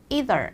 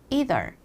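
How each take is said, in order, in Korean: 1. 미국식 발음이에요. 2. 미국식 발음이에요.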